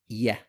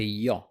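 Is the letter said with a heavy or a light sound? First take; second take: light; heavy. First: The letter is said with a light, thin vowel. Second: The letter is said with a heavy, full vowel. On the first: The speaker calls it right. "Correct pronunciation is yeah, Make sure you pronounce it light" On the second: The speaker calls it wrong. "It's a common mistake to say ya"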